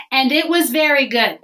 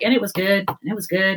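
First: "very good" said higher, with weight on VERY; emphatic verdict. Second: Said in the usual way. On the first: Retold or imitated. God approving the creation of women, emphatic on "very good". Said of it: "and then he makes women". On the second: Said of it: "Every day he's like".

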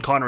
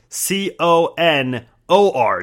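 First: Letter by letter, C O N N E R; spelling it out. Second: Spelling it out. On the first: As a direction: read out each letter, C O N N E R, evenly. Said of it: "And Conner is spelled". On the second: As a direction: spell out C O N O R carefully. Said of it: "his first name is spelled". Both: Shown as a demonstration.

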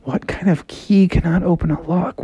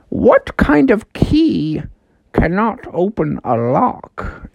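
First: Lightly voiced frog mulling a riddle; pondering Froggy. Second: Slow, drawn-out riddle master, swooping high; talking house. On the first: Froggy repeats the house's riddle to himself, lightly puzzled. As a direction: repeat it to yourself, puzzling, slightly higher. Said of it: "And Froggy's like". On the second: Acted. Talking house puts a riddle to Froggy, slow and mysterious. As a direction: pose the riddle slowly and mysteriously. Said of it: "the house was like".

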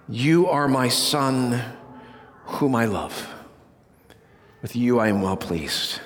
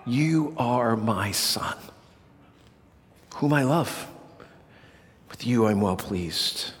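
First: Voice of the Father. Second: Hushed voice of the Father. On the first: Preacher giving the Father's voice at Jesus' baptism, low and solemn. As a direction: speak as God the Father blessing his Son. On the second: Preacher repeating the Father's words to his Son, hushed and tender. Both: Acted. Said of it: "this is the definitive voice of the Father".

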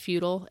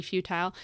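First: "futile" as FEW-tl; "futile" rhyming with brutal; childhood regional pronunciation. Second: "futile" as FEW-tile; "futile" ending like the word tile; supposed pronunciation. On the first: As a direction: say "futile" with a reduced second syllable. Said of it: "it was pronounced futile". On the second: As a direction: say "futile" with a long-i second syllable. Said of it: "sense it should be futile". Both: Shown as a demonstration.

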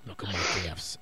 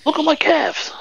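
First: Low breathy whisper. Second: Much higher silly voice; high mock boast. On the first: Pretend. Whispered echo.

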